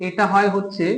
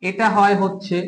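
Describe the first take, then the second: No difference in how they are said.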